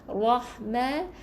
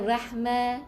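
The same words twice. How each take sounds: First: The r is pronounced thick and full. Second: The r is pronounced thin and light. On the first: The speaker calls it right. "ra baris atas, ra yang tebal" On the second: The speaker calls it wrong. "Kita baca dengan nipis pula salah"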